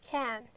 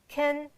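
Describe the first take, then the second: First: The vowel is full and unreduced. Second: The vowel is reduced to a short schwa. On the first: The word is used as a main verb. "you can't reduce a sound. Like I can" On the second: The word is used as an auxiliary verb. "But in other cases, you can it. Can do it"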